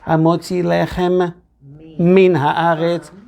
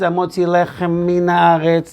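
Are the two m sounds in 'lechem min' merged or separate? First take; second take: separate; merged. First: Both m sounds are pronounced separately. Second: The two m sounds merge into one. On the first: The speaker calls it right. "You're supposed to say Amotzi lechem min haaretz, two mems" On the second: The speaker calls it wrong. "They combine the two mems"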